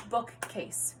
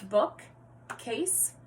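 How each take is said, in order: First: Said in the usual way. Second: "Bookcase" broken in two with a gap after book; segmented syllables. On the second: Shown as a demonstration. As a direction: count out "Bookcase" as book... case. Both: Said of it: "combining and segmenting syllables".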